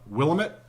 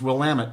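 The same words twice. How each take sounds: First: The word does not rhyme with 'damn it'. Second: The word rhymes with 'damn it'. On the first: The speaker calls it wrong. "people will frequently mispronounce it" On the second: The speaker calls it right. "it's Willamette, damn it"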